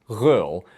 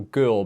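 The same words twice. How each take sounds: First: The first consonant is softened by lenition. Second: The first consonant keeps its plain sound.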